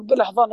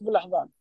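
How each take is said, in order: First: Higher, scoffing repeat of بالأحضان; mocking echo. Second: بالأحضان said softer, earnest and falling; mean بالأحضان with quiet conviction; sincere insistence. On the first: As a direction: say بالأحضان as if ridiculing the idea. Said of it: "في ناس اللي ما هم مختص يقول". (بسخرية واستهزاء) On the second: Shown as a demonstration. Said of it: "أقول لك". (بصدق وهدوء)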